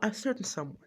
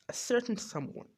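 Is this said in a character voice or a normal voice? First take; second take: normal voice; character voice. First: It is said in the speaker's ordinary voice. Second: It is said in a put-on character voice.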